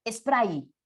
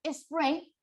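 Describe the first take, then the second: First: "spray" said as es-PRAI; castellanized with I. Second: "spray" ending in an EY sound; English form. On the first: Teacher showing the resulting Spanish word, "spray" as es-PRAI. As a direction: end "spray" on a Spanish AI diphthong. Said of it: "así quedaría en la palabra". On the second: Teacher citing the English original, "spray" with an EY ending. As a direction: say "spray" as es-PREY. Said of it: "en vez de colocar". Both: Shown as a demonstration.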